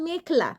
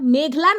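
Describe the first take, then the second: First: The middle consonant is a voiceless kh. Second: The middle consonant is a voiced gh. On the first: The speaker calls it right. "ওইটারে কয় মেখলা" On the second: The speaker calls it wrong. "ওইটা মেঘলা নয়"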